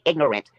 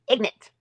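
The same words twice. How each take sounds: First: "ignorant" in three syllables, ig-nor-ant; standard pronunciation. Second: "Ignorant" in two syllables, ig-nant, pitched higher; bayou pronunciation. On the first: Shown as a demonstration. Correcting herself in mockery, "ignorant" said in full. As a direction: pronounce the "or" in "ignorant" clearly. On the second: Retold or imitated. Mocking a rival's bayou speech, "Ignorant" as ig-nant. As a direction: lift and shorten "Ignorant" to IG-nent. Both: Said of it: "I didn't say ignorant".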